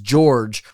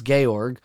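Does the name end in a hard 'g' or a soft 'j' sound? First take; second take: soft j; hard g. First: The name ends in a soft 'j' sound. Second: The name ends in a hard 'g' sound. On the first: The speaker calls it wrong. "which I obviously was incorrectly pronouncing as George for most of my life" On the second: The speaker calls it right. "it's Georg"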